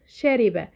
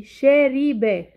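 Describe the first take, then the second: First: Said in the usual way. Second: "شاربة" stretched very slowly, louder, syllable by syllable; sounded out slowly. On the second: Shown as a demonstration. Teacher presents the next word to analyse, "شاربة" sounded out slowly. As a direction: draw out each syllable of "شاربة". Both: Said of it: "بحلل صوتي".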